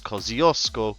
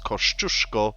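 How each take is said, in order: First: The name is said with an anglicized pronunciation. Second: The name is said with a Polish pronunciation. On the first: This is how people in Australia say it. "I learned it as Kosciuszko" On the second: This is the original Polish way to say it. "I know that it is Kościuszko"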